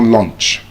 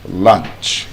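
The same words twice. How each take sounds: First: The vowel sounds like 'oh'. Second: The vowel sounds like 'uh'. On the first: The speaker calls it wrong. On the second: The speaker calls it right.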